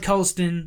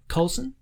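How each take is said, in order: First: The name is said with a T sound. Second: The name is said without a T sound. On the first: This helps people spell the name. "I'd say it with a" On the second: This is the real pronunciation of the name. "It's actually a silent T"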